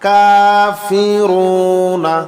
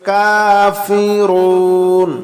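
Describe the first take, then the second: First: The word ends with a final vowel. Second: The word ends on the consonant n. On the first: The reading continues without a stop. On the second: The reader stops at this word.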